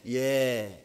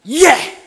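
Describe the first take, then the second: First: It is said weakly and flatly. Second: It is said forcefully and loudly.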